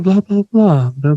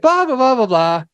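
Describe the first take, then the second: First: The voice sounds serious and flat. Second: The voice sounds joyful and lively. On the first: The speaker is putting on a businesslike podcast voice. "I'm going to imitate you" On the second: The speaker is casually enjoying time with family. "joyful and excited"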